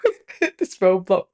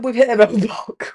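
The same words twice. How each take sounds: First: Laughing softly. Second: Said in the usual way. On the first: Real, not acted.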